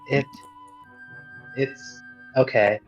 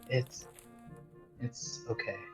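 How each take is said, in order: First: It is said loudly. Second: It is said quietly.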